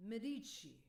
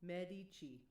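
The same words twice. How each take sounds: First: Medici stressed on the second syllable, meh-DEE-shee, higher. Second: Medici stressed on the first syllable, MED-ee-chee. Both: Shown as a demonstration. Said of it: "Which one is the accent on".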